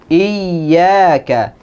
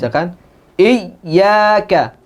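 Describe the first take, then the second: First: The doubled y is pressed but flows smoothly. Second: The doubled y is overpressed and the voice breaks. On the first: The speaker calls it right. "Dia rakhawah, mengalir suara" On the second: The speaker calls it wrong. "berlebihan, ... i sampai suaranya terputus"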